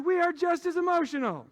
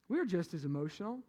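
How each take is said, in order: First: High, forceful shout to the crowd; loud proclamation. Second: Said in the usual way. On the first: Real, not acted. Preacher telling the guys a home truth, loud proclamation. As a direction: belt it out as a big declaration.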